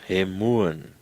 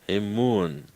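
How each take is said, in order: No difference in how they are said.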